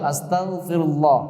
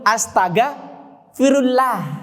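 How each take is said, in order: First: The l in -ullah is heavy and thick. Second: The l in -ullah is light and thin. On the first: The speaker calls it right. "Itu kan lamnya juga tebal" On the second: The speaker calls it wrong. "dia baca tipis. Dia baca dulu astaga firullah"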